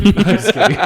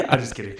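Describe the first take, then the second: First: Laughing. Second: Said in the usual way. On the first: Real, not acted. Laughing at his own jab.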